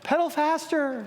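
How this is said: It is said in a soothing, calming way. "yell it in a calming way"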